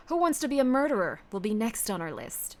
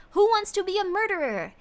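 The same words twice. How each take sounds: First: Measured, mock-stern announcement; deliberate, authoritative title read; put-on commanding voice. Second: Raised pitch, stretched out with relish; hyped title announcement. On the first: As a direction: announce it like a commander briefing troops. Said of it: "telling me to talk like this". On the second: Pretend. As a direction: announce it like an excited game-show host. Announces next game title, hyped.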